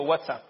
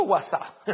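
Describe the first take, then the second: First: "WhatsApp" as "WAT-sap", with t and p; corrected pronunciation. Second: "WhatsApp" as "wa-SA", no final p; joking "guasá" slip. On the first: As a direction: sound the t and final p in "WhatsApp". ("WhatsApp" dicho "uátsap", completo) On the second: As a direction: end "WhatsApp" on an open, stressed a. ("WhatsApp" dicho "guasá") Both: Shown as a demonstration. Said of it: "digo WhatsApp".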